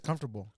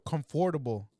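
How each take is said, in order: First: The middle syllables are squeezed together and reduced. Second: Every syllable is said, as it is spelled. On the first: "everybody says comfortable" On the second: "That's that's how it's spelled out"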